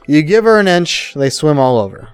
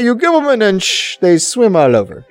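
First: It is said in the speaker's ordinary accent. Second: It is said in a put-on Jamaican accent.

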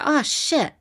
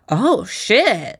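First: It sounds like realizing you forgot something. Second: It sounds like pleased appreciation of something good.

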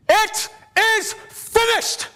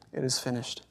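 First: It is cried out in a loud voice. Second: It is said weakly, like a defeated victim. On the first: The speaker declares victory. The speaker calls it right. "he cried with a loud voice" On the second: The speaker sounds beaten and hopeless. The speaker calls it wrong. "he didn't say it as a defeated victim"

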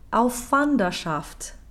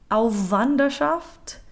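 First: One lengthened voiceless consonant joins the two words. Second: The consonant joining the two words is voiced. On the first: The speaker calls it right. "all we need here is a slightly lengthened unvoiced consonant" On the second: The speaker calls it wrong. "What we cannot do is make them both voiced"

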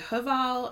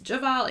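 First: The name begins with an H sound. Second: The name begins with a J sound. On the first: "if you're not supposed to pronounce the J" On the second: "it could be just Javal"

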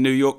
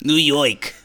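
First: It is said without a New York accent. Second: It is said in a New York accent.

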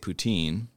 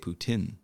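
First: It is said with a plain English pronunciation. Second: It is said with a Quebec French pronunciation. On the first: The speaker calls it wrong. "I would just say poutine" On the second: The speaker calls it right. "they would even go a step further and say poutine"

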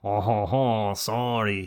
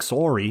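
First: It is said in a French accent. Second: It is said in a nasal Canadian accent. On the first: "when you try to make it a French" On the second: "you could do the fucking annoying Canadian nasally voice"

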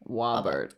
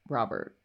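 First: The name begins with a W sound. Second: The name begins with a clear R sound.

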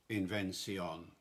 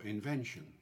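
First: It is said in early modern English pronunciation. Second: It is said in a modern English accent.

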